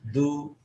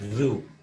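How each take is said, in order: First: The consonant is a hard stop like d. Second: The consonant is a buzzing, flowing sound. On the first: The speaker calls it wrong. "itu seperti huruf dan tidak diperkenankan" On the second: The speaker calls it right. "harus pasti zu"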